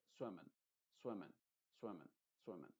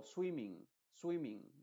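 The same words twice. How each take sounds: First: Swimming with a dull E, softer and lower, no G; muffled E. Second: Swimming with a clear I and final G. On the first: Teacher models the right swimming. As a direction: say swimming quietly with a swallowed E. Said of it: "pero muy apagada". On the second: Teacher shows the wrong swimming. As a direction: say swimming with a bright I and a sounded G. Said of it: "No estoy diciendo eso". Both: Shown as a demonstration.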